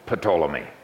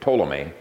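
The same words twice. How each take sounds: First: The initial P is sounded. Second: The initial P is silent. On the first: The speaker calls it wrong. "I'm deliberately mispronouncing it" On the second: The speaker calls it right. "You don't pronounce the P in the Greek. You just say Ptolemy"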